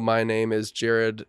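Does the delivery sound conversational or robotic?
robotic. It is said in a stiff, robotic way. The speaker calls it wrong. "Don't sound robotic"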